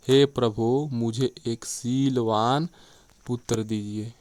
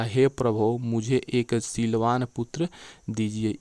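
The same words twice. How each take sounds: First: शीलवान stretched out slowly, then a pause; stress on शीलवान. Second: Slow reading leaning on पुत्र; पुत्र emphasized, then a short break; stress on पुत्र. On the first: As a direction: draw out शीलवान and drop off on पुत्र. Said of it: "यदि शीलवान पर बल देकर पढ़ेंगे". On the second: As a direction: give पुत्र the weight, pause before दीजिए. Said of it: "यदि पुत्र पर बल देते हैं". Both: Shown as a demonstration.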